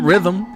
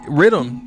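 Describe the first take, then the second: First: The middle consonant is a soft 'th' sound. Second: The middle consonant is a hard 'd' sound. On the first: The speaker calls it wrong. "not rhythm" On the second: The speaker calls it right. "like dancehall"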